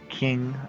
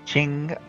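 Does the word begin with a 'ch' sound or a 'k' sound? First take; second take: k sound; ch sound. First: The word begins with a 'k' sound. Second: The word begins with a 'ch' sound. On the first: The speaker calls it wrong. "rather than the King of China" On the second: The speaker calls it right. "it is in fact the Qing of China"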